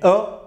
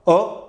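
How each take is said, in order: First: The vowel sounds like the o in 'colle'. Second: The same.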